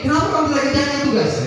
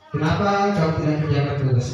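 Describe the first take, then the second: First: The question is said with strong, rising emphasis. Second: The question is said in a flat, even tone. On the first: "Jangan seperti ini" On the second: "intonasi bahasanya datar, tidak ada penekanan ke atas"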